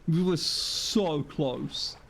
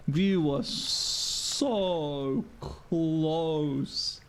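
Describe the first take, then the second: First: Slow lament with a stretched SO; drawn-out lament. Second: Extremely slow, with SO and CLOSE stretched long; exaggerated drawn-out lament. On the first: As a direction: stretch "so" in dismay. Lamenting a narrow miss. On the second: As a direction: wail it out, dragging "so" and "close". Repeats the lament, more drawn out. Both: Real, not acted.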